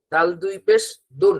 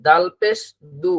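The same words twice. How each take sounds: First: "দুন" finished with a clear n sound; "দাল দুই পেশ দুন" with the n ending sounded; tanween reading. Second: "দু" left short and open, no n at the end; "দাল পেশ দু" without the nasal ending; single harakat reading. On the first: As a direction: close "দুন" on a dental ন. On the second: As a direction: stop on a bare vowel in "দু". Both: Shown as a demonstration. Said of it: "এই জায়গাটাই আমাদের খেয়াল করতে হবে".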